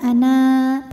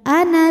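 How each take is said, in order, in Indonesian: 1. Vokal akhirnya dibaca panjang. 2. Vokal akhirnya dibaca pendek. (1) "panjang kalau berhenti" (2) "kalau terus pendek"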